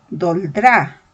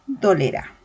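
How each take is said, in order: First: Doldrá said with the e dropped, two syllables; wrong pronunciation. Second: Dolerá said in full, do-le-rá; correct pronunciation. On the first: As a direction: clip it to doldrá, skipping the middle e. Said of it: "si yo digo". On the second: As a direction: give every syllable of dolerá. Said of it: "Lo correcto sería decir". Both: Shown as a demonstration.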